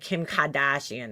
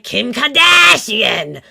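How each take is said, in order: First: It is said with a mild Boston accent. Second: It is said with an exaggerated Boston accent. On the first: "how it would come out in a normal Boston accent" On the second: "she does this fake Boston accent"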